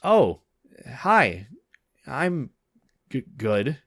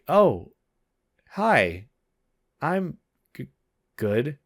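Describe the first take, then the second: First: The words come quickly with little space between. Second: The words are spaced out and drawn out longer. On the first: "I didn't really space out the words in between" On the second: "Let me make it like kind of lengthier"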